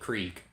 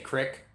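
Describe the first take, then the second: First: It is said in a general American way. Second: It is said in a Philadelphia accent.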